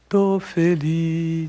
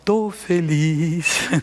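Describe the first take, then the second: First: It is said flatly, without joy. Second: It is said with a joyful, lively tone. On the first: The speaker calls it wrong. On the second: The speaker calls it right.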